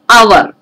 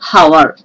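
First: The word begins directly with a vowel sound. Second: The word begins with an audible h sound. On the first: The speaker calls it right. "It is hour. H is silent" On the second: The speaker calls it wrong. "We are not pronouncing it as hour"

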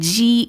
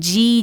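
No difference in how they are said.

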